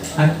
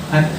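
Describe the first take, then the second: No difference in how they are said.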